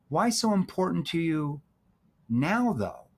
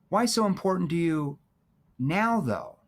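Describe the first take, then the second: No difference in how they are said.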